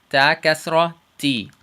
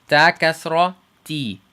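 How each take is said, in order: No difference in how they are said.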